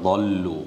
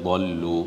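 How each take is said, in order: No difference in how they are said.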